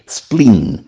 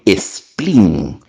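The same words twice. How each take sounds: First: It is said as English, starting with sp. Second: It is said as Spanish esplín, with an added e. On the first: "Spleen es una palabra inglesa" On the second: "A veces la castellanizan y le ponen spleen. E S P L I con tilde N, que suena muy feo"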